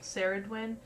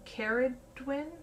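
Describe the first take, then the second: First: The name begins with an S sound. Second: The name begins with a K sound. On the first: The speaker calls it wrong. "I was pronouncing it wrong before, and I was saying Saradwin" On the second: The speaker calls it right. "It's Car Caradwin"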